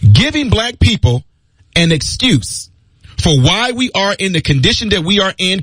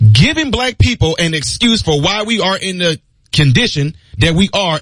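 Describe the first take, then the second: First: The sentence is spoken at a slow pace. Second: The sentence is spoken at a fast pace. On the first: "Do I need to say that slowly?" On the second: "I know I talk fast"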